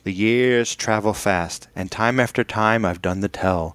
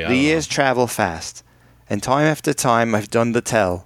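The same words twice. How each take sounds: First: It is read in the speaker's ordinary accent. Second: It is read in a mock Australian accent. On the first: The speaker calls it wrong. "No, you got to do it in an Australian accent" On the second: The speaker calls it right. "do it in a bad Australian accent"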